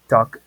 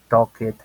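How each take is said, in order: First: The ending adds no extra syllable. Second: The ending is said as an extra syllable. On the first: The speaker calls it right. "van a decir algo como" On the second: The speaker calls it wrong. "no suena así"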